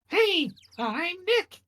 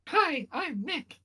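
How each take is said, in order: First: It is said more loudly. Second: It is said fairly quietly.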